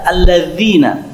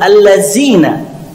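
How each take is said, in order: First: The middle consonant is a th sound. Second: The middle consonant is a plain z sound. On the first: The speaker calls it right. "Nah, ini yang betul. Ketika mengucapkan huruf zal, kita mengeluarkan sedikit lidah kita" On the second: The speaker calls it wrong. "Kebanyakan orang mengucapkan huruf zal itu dengan huruf zai"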